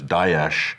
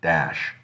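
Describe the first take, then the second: First: The word is said with Arabic-style sounds. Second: The word is said in an American-style way. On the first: This is the original Arabic form. "which is more accurate. That's the Arabic one" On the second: This imitates an American politician's version. "and then there's Obama, which is"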